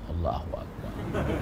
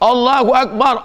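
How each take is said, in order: First: It is said softly. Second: It is said loudly.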